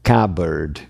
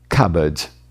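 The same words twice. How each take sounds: First: The R sound at the end is pronounced. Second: The R sound at the end is dropped. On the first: "Então a palavra é cupboard" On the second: "o britânico pode tirar fora esse R"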